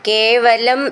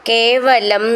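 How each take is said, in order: No difference in how they are said.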